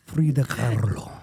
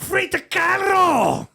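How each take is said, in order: First: Low Mexican-accented name with rolled R; put-on Mexican accent. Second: High, drawn-out shout in a mock German accent; screamed German-accent attempt that sounds Cuban. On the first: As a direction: roll it like a Mexican Spanish speaker. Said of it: "put that Mexican accent". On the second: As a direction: bellow it in a bad German accent, R rolled. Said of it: "do it with a German accent". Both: Shown as a demonstration.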